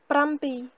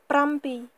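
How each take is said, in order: Both takes have the same delivery.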